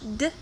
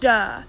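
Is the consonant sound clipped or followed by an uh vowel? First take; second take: clipped; uh vowel. First: The consonant is short with no vowel after. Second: The consonant is followed by an uh vowel. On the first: The speaker calls it right. "instead of D" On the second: The speaker calls it wrong. "some people say duh"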